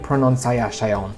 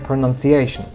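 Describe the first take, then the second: First: The unstressed vowels keep their full quality. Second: The unstressed vowels are reduced to schwa. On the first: The speaker calls it wrong. "we don't say pronunciation" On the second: The speaker calls it right. "vowels that are not stressed ... get reduced to schwa"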